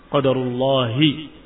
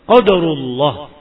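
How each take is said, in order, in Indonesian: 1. Kata ini berakhir dengan vokal i di akhir. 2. Kata ini berakhir tanpa vokal di akhir.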